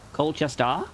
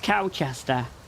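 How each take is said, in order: First: The first syllable sounds like 'coal'. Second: The first syllable sounds like 'cow'. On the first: "Am I saying it wrong?" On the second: "The way that she pronounced it's like Cowchester"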